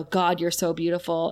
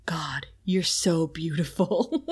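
First: Said in the usual way. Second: Slow unvoiced seductive whisper; breathy whisper.

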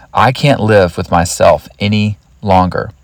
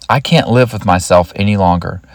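First: Deliberate repeat. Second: Said in the usual way. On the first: Retold or imitated. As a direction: let each part of the phrase land separately. Quoted thought repeated slowly for emphasis.

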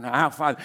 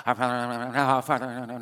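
First: Said in the usual way. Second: Mock mindless repetition, trailing into a laugh; rote mumble. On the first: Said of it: "more than repetitive". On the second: Shown as a demonstration. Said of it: "more than repetitive, like".

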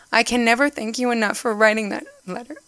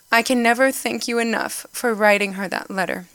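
First: Choked up, the words catching; fighting back real tears while reading the quote; tearful, barely holding it together; voice breaking with emotion. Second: Said in the usual way. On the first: Real, not acted. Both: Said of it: "I'm getting emotional".

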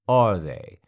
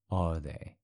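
First: Loud, barked question; sudden shout. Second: Said in the usual way. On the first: Acted. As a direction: snap it out loud.

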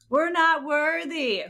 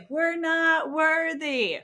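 First: High, slow mock worship; drawn-out high bow-down chant; Wayne's World catchphrase. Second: High, slow shout of worship; shouted catchphrase. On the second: Retold or imitated. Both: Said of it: "Wayne's World".

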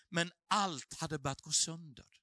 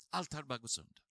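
First: Said in the usual way. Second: Repeated low and quiet, almost to himself; soft echo. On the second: Shown as a demonstration. Pastor echoes his own line to the congregation, hushed and low. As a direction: let the words sink in, much softer and lower.

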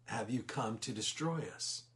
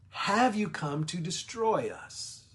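First: Softer, lower, fearful demon. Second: Higher, slow, dramatic demon question; demon's question. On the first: Demon afraid before the Lord, asking softly. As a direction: shrink back as you ask. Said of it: "in fear". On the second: Demon asking Jesus if he'll destroy them, higher and slow. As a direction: press him with dread. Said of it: "And he says". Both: Retold or imitated.

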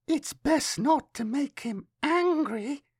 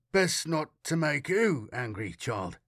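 First: Put-on very high, slow child voice; child's warning, drawn out and rising at the end; little girl. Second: Usual-pitched adult voice with WHO lifted; man questioning a child. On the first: Girl warns Matthias about her friend, high slow child voice. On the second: Matthias attempts a smile and questions the girl, adult voice. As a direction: ask it as the grown-up, stress on "who". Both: A narrator's reading.

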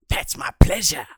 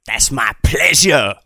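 First: Breathy whispered payoff. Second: Said in the usual way. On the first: Acted. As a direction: drop to a sly whisper.

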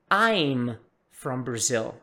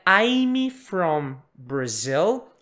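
First: Slow, lower "I'm", ending cleanly on m; correct I'M. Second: Slow "I'm" with an added "ee": "ai-mee from Brazil"; wrong I'M. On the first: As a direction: close "I'm" on m with no "ee" after. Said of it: "Ele não tem o I". ("I'm" correto, m mudo, sem i) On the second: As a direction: stretch "I'm" into "I-me". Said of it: "Então, não é". ("I'm" com i sobrando no final) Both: Shown as a demonstration.

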